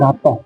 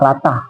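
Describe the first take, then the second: First: The last syllable has an 'oh' vowel. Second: The last syllable has an 'ah' vowel.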